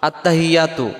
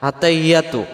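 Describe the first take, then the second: Both takes have the same delivery.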